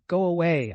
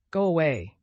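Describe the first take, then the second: First: Louder desperate repeat; desperate command. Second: Loud desperate order; desperate command. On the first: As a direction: push the order harder. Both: A narrator's reading. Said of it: "I commanded in desperation".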